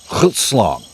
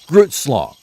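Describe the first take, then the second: First: It begins with a hard, throaty, raspy G sound. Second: It begins with a plain English G sound. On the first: "I'm going to pronounce Grootslong correctly once" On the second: "the American pronunciation of Groot, like I am Groot"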